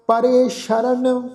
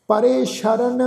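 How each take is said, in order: First: ਸ਼ਰਨ with sh, not s, slow and chanted; ਸ਼ਰਨ ਵਿੱਚ ਸ਼ ਦੀ ਆਵਾਜ਼; dotted sh sound. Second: ਸ਼ਰਨ with a clear sh, repeated for the class; ਸ਼ਰਨ ਦਾ ਸਹੀ ਉਚਾਰਨ; dotted sh sound. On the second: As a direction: say ਸ਼ਰਨ as shuh-ran. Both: Shown as a demonstration. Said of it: "ਸੱਸੇ ਪੈਰ ਬਿੰਦੀ ਲਗਾ ਕੇ".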